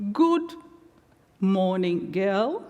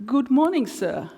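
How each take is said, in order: First: Lightly voiced cheerful old man, rising start; a kind elder's bright hello; cheery greeting. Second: Said in the usual way. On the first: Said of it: "said cheerily". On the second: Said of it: "I replied".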